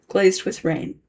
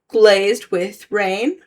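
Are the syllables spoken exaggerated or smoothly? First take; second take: smoothly; exaggerated. First: The syllables flow together at normal speech. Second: Each syllable is separated and exaggerated deliberately. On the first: "read it normally" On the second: "read it with the syllables exaggerated"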